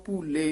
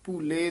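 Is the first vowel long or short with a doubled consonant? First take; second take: long; long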